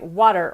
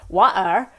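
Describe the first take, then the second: First: The T is a quick tap of the tongue. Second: The T sound is left out entirely. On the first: "where it's a much more rapid hitting of the tongue against the alveolar ridge" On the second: "where you don't have the T"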